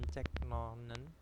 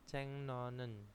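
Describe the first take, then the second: First: The first word ends with a k sound. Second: The first word ends with an ng sound. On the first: The speaker calls it wrong. "itu bacanya bukan cek nonen" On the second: The speaker calls it right. "tapi bacanya adalah ceng"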